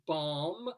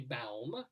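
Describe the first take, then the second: First: The word is said like 'bomb'. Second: The word is said like 'baum'. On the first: This is how the other player says it. "As you pronounce it" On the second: This is how the speaker's own group says it. "but we might say baum"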